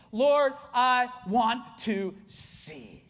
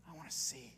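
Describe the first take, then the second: First: Very slow, word by word; weighty, drawn-out plea; heartfelt plea. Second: Hushed, low and tender; soft, intimate prayer; heartfelt quiet plea. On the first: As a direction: draw out each word of the prayer. Acting the blind man's plea. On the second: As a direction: let the plea drop almost to a murmur. Blind man's plea repeated softly. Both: Acted.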